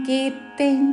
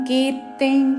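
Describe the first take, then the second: Both takes have the same delivery.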